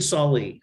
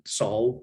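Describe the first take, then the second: First: The name is said with two syllables. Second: The name is said with one syllable.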